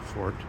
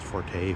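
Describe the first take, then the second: First: The word ends on a plain t sound. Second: The word ends with an extra vowel after the t. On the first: This sounds like someone from old money. The speaker calls it right. "always saying things like "fort,"" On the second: This is how less educated people say it. The speaker calls it wrong. "undereducated people pronounce"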